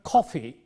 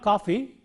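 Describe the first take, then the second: First: The k is said with a puff of air. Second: The k is said without a puff of air. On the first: The speaker calls it right. "but coffee. Ka" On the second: The speaker calls it wrong. "It is not coffee"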